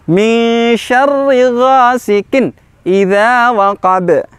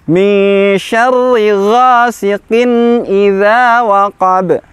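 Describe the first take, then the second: First: The n sound after ghasiqin stops abruptly. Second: The n sound after ghasiqin is moderately sustained. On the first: The speaker calls it wrong. "Contoh yang keliru" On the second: The speaker calls it right. "Yang benar adalah ada sifat tawasud pertengahan huruf nun sukunnya"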